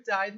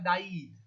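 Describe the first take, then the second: First: "died" as one syllable, rhyming with ride; correct pronunciation. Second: "daid" as two syllables, da-EED; wrong pronunciation. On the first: Teacher gives students the proper past tense, "died" in one syllable. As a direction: say "died" as DYED, just a D on the end. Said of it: "eu deixo só, ah, o D no final". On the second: Teacher shows students a nonexistent form, "daid" mispronounced da-EED. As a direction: say "daid" wrongly with a long ee ending. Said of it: "Não existe essa pronúncia". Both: Shown as a demonstration.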